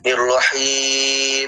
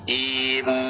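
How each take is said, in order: First: The final m sound is held too long. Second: The final m sound flows only briefly. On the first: The speaker calls it wrong. "kalau bacanya terlalu panjang" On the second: The speaker calls it right. "Ada jalan sedikit"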